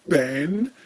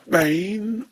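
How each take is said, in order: First: The vowel is a short flat 'a' sound. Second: The vowel is a long 'ay' sound.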